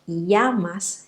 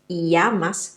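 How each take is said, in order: First: The double L sounds like a y glide. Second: The double L sounds like a y glide.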